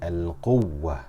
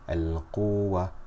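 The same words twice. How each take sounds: First: The doubled waw is stressed with raised voice. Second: The vowel before the waw is stretched long. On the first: The speaker calls it right. "I'm raising the voice slightly to show that there are two letters" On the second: The speaker calls it wrong. "This is mad"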